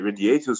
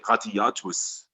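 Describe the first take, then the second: First: The word is said in a plain, soft way. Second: The word is said in a hard, crushing way. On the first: The speaker calls it wrong. "we don't say radiators" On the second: The speaker calls it right. "we say radiatus. ... it sounds even more crushing"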